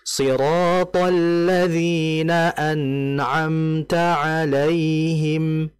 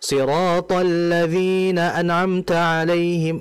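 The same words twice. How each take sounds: First: The n sound flows for a moderate length. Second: The n sound is cut off too quickly. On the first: The speaker calls it right. "Nunnya dialirkan" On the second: The speaker calls it wrong. "itu terlalu cepat"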